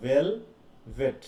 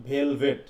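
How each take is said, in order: First: "velvet" broken slowly into "ভেল" and "ভেট"; syllables separated. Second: Said in the usual way. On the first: Shown as a demonstration. Teacher showing students the repeated sound, "velvet" syllables separated. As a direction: stretch "velvet" out, pausing between its two syllables. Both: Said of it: "সিলেবাসের মধ্যে আছে না?".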